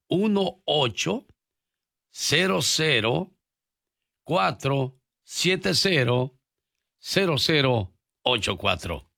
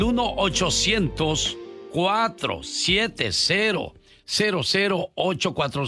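First: The number is said slowly. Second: The number is said quickly.

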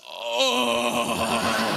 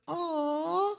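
First: It is said in a coarse, rough voice. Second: It is said in a soft, sweet voice.

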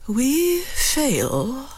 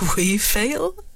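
First: It sounds thoughtful. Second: It sounds cavalier.

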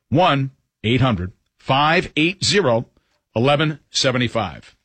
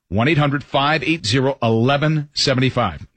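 First: The number is said slowly. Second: The number is said at a normal pace.

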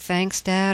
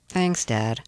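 First: It sounds sincerely grateful. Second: It sounds sarcastic, like a teenager's eye roll.

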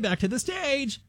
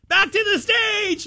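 First: It is said firmly but calmly. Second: It is said loudly in a panic.

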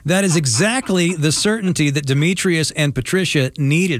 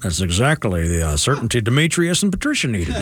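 First: It is said in the speaker's normal voice. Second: It is said imitating the co-host's voice.

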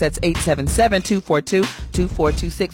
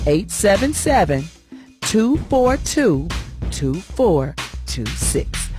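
First: The number is said fast. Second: The number is said slowly.

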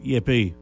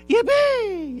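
First: It is said flatly, without energy. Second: It is said excitedly, with high energy.

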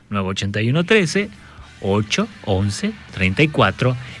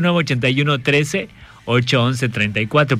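First: The number is said slowly. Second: The number is said very fast.

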